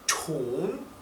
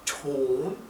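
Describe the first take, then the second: The two takes are said the same way.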